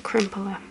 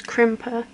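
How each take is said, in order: First: Crimpler with an added L, crimp-ler, three syllables; "crimpler", the mistaken version; wrong crimpler. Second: Crimper said plainly as crimp-er, two syllables; "crimper", with no extra L sound; correct crimper. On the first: Owning up to her habit, says it the wrong way. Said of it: "Not a crimpler". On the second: Correcting her own word, says it properly. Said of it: "That's not the right term". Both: Shown as a demonstration.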